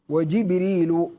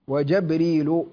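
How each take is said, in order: First: It begins Jib- with no glottal stop. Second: It begins Jab- with no glottal stop.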